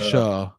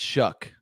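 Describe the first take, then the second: First: The name ends on the vowel, no consonant. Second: The name ends with a k sound. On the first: The speaker calls it wrong. "or Shuh" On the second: The speaker calls it right. "but it's Shuck"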